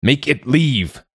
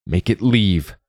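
First: Drawn-out, high-pitched roared order. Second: Restrained angry order, pitched higher; mild shout. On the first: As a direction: roar it slowly, pitched well up. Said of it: "Ingolfur roared". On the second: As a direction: order it away, not at full force. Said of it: "Don't shout". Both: A narrator's reading.

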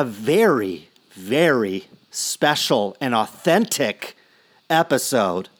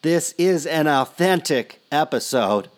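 First: Slowed down, leaning on very; slow and weighty on very; slow emphasis. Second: Insistent stress on is; emphasizing authentic. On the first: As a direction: drag out very special and authentic. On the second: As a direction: stress on is, then a falling authentic episode. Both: Real, not acted. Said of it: "And I emphasize".

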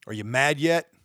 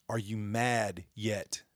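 First: Louder, pushed demand; angry rhetorical challenge to viewers. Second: Softer, slow, held-back question; slow, quiet jab after shouting; quiet challenge. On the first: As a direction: throw the question hard at them. Repeated challenge, loud take. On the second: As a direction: drop the voice and let it sink in. Repeated challenge, quiet take. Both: Real, not acted.

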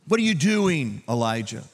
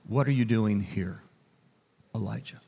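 First: Hammed-up telling-off, pitched up; mock rebuke. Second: Gentle voice. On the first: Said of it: "couldn't God have rebuked him". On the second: Acted. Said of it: "he came in a gentle voice".

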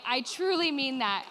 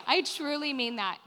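First: Slow and weighty, TRULY leaned on; slow emphatic. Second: Said in the usual way. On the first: Real, not acted. Preacher promising her church she truly means it, slow and firm. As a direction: hold "truly" long and firm so it lands.

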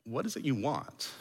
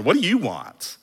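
First: Very soft, after a long pause; deep, searching question. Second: Brisk "What do you want?" at full voice; brusque asking. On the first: Jesus asking with seventeen layers of meaning, soft searching question. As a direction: ask quietly, looking into their soul. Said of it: "sort of look deeply in their soul". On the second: How Jesus is not asking his followers, brusque demand. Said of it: "we don't really know emphasis and tone". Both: Shown as a demonstration.

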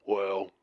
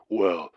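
First: Breathy whisper; whispered well. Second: Said in the usual way. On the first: Acted. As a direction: whisper it to pull them in. Caller starts his creepy tale.

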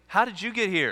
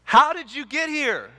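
First: Said in the usual way. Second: Much higher, louder baffled outburst; acted exasperation. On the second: Baffled guy in heaven demands an explanation from criminal, exasperated. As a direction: demand it in loud, high-pitched disbelief. Questioner repeats, now exasperated.

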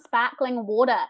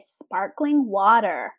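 First: "sparkling water" with New Zealand r-less vowels; New Zealand accent. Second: "sparkling water" with hard American r's; American accent. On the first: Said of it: "saying it in your accent". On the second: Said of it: "trying to say it in our accent". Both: Shown as a demonstration.

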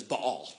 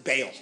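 First: "Baal" in two syllables, buh-AWL; correct pronunciation. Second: "Baal" as one syllable, like "bale"; alternative pronunciation. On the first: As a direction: stress the second half of "Baal": buh-AHL. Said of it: "The correct pronunciation is". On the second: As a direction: rhyme "Baal" with "pale". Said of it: "Some people pronounce it". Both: Shown as a demonstration.

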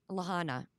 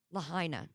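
First: "Lahana" said la-HAH-na, with no "i" sound; "Lahana" with a flat "ah" in the middle syllable; mispronounced Lahaina. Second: "Lahaina" with a clear "eye" sound in the middle; corrected pronunciation. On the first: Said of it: "I don't think I said that right still". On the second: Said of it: "There we go". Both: Real, not acted.

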